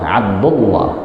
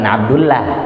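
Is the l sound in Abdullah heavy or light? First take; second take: heavy; light. First: The l in Abdullah is heavy and thick. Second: The l in Abdullah is light and thin. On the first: The speaker calls it right. "lamnya tebal" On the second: The speaker calls it wrong. "bukan Abdullah"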